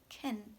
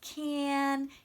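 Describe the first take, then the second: First: The vowel is reduced to a weak schwa. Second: The word has a full, clear vowel. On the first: The word is unstressed inside a sentence. "normally not stressed, and so it can become can" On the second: The word is said on its own. "if you are pronouncing them alone, you'll use clear vowels"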